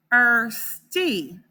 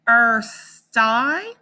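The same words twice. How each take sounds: First: "thirsty" ending with the long E sound, like "thirst-ee". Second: "Thirsty" ending with the long I sound, like "thirst-eye". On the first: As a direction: say "thirsty" with a clear E at the end. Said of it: "or it can say E". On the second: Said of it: "It can say I". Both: Shown as a demonstration.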